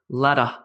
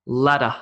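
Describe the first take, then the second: No difference in how they are said.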